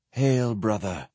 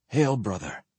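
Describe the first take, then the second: First: Hollow specter greeting, slightly subdued; empty voice. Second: Soft, slightly choked reply. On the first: Specter turns to greet Sparhawk, empty-voiced. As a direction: intone it emptily, like a shade. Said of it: "in that same empty voice". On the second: Sparhawk answers his dead brother knight, choked. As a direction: keep it quiet, a little choked up. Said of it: "replied in a choked voice". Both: A narrator's reading.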